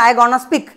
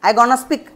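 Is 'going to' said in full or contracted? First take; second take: contracted; contracted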